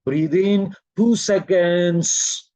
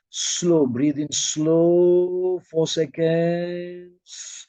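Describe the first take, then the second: First: Evenly drawn-out count, lengthened ending; measured breathing cue. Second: Very slow, long-held vowels; longer, slower cue. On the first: Teacher guiding a two-second breath, measured and drawn-out. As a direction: pace a short breath with the words. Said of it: "between two seconds". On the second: Teacher lengthening the group's breath, very slow and drawn-out. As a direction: stretch SLOW out across a whole breath. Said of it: "make it a bit longer, slower now". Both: Shown as a demonstration.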